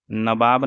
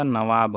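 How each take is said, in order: First: नवाब as "nabaab". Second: Said in the usual way. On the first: Shown as a demonstration. Teacher showing the mistake, नवाब as "nabaab". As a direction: put a b in place of the v in नवाब. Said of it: "नहीं होगा". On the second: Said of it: "नवाब होगा".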